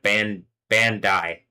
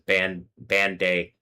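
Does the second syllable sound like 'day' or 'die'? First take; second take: die; day. First: The second syllable sounds like 'die'. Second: The second syllable sounds like 'day'. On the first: This is how the makers pronounce the name. "that's how they pronounce it" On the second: This is how the written name reads. "It says"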